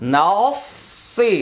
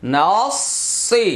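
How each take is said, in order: Both takes have the same delivery.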